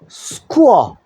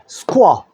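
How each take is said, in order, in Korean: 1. 이 소리들은 천천히, 하나씩 따로 발음됩니다. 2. 이 소리들은 빠르게, 이어서 붙여 발음됩니다.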